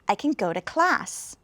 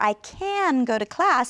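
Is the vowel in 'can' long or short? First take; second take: short; long. First: The word 'can' is reduced with a short vowel. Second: The word 'can' has a long, stressed vowel. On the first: "sounds almost just like a K and an N" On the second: "they pronounce it really long, like they can't"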